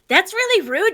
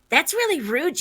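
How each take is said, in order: First: It is said in a put-on cartoon character voice. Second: It is said in a plain, ordinary voice. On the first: The speaker calls it right. "There we go" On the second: The speaker calls it wrong. "God, I need to get into voice"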